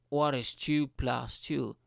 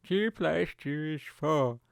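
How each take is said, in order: First: Slow, spaced-out question to a device; test question. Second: Slow, mock robotic assistant answer; Alexa. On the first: Retold or imitated. User testing the smart speaker, slow question. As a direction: ask it slowly, word by word. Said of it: "And I was like". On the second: Smart speaker answering simple sum, robotic impression. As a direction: imitate a machine stating a fact, slowly. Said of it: "He's like".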